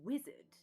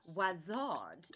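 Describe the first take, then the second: First: The first vowel sounds like 'i' in 'wiz'. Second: The first vowel sounds like 'a' in 'was'. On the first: This is the usual way of saying it. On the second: This is how people further north say it.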